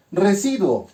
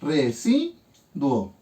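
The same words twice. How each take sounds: First: Said in the usual way. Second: "residuo" very slowly as re - si - duo, with pauses; división silábica. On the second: Shown as a demonstration. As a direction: break "residuo" into syllables, keeping duo as one. ("residuo" muy lento, por sílabas: re - si - duo) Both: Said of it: "Y hago mi división sílaba".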